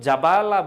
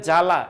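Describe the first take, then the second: First: A b sound follows the first consonant. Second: No b sound follows the first consonant. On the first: The speaker calls it wrong. "এটা কিন্তু জাবালা বলি না" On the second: The speaker calls it right. "বফলার উচ্চারণ হয় না"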